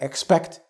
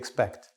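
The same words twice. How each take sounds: First: The first syllable is a full 'ex' sound. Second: The first syllable is a reduced 'ix' sound. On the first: The speaker calls it wrong. "Not expect" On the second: The speaker calls it right. "it becomes ix"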